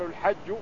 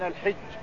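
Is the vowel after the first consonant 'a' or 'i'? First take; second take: a; i. First: The first vowel is an open 'a' sound. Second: The first vowel is a close 'i' sound. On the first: This is the more common form. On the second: This is the less common form.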